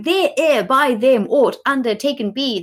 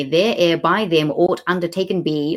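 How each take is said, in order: First: "There ere by them aught undertaken be" read high and scornful, every word dragged out; mock the clumsy line "There ere by them aught undertaken be" in a higher, sneering voice; mocking quote. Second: Said in the usual way. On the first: Shown as a demonstration. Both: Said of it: "seven words saying should".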